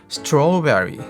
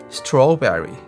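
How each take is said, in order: The two takes are said the same way.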